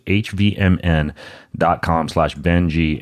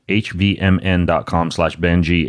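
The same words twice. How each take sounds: First: Slow, spelled-out URL repeat; slow and clear. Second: Said in the usual way. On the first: Shown as a demonstration. Host repeating the sponsor URL for listeners, slow and deliberate. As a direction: spell out the web address slowly so listeners catch it. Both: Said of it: "repeats the URL slowly".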